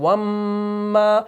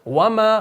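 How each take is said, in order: First: The m sound is doubled. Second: The m sound is short. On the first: The speaker calls it wrong. "हम ऐसे नहीं पढ़ते हैं" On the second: The speaker calls it right. "मीम के ऊपर जबर होती है तो हम पढ़ते हैं वमा"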